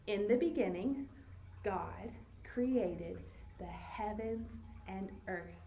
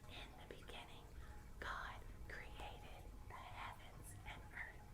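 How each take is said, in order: First: It is spoken in a normal voice. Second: It is whispered.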